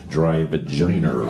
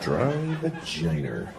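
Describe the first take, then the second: First: Dry "vagina" with an added final r, Boston style; low Boston-accented "vagina", ending like "vaginer"; lightly put-on Boston accent. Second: Soft, slow Boston "vagina", ending like "vaginer"; slow, hushed Boston pronunciation; Boston accent. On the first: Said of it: "I did because I grew up in Boston". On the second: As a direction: draw out "Dry vagina" quietly in Boston accent. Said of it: "people call it the Boston accent". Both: Shown as a demonstration.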